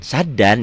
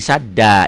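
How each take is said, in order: First: The word ends with an n sound. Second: The word ends with a long a vowel. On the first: The reading continues without stopping. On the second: The reader stops on this word.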